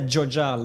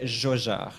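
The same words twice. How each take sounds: First: The J is a hard English 'dj' sound. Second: The J is a soft French 'zh' sound. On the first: The speaker calls it wrong. "you don't say Jojard like you would say for Jojo" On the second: The speaker calls it right. "like a, pr a proper French J. And the D doesn't get pronounced"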